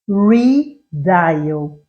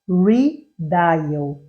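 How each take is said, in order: First: The word is said with English sounds. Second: The same.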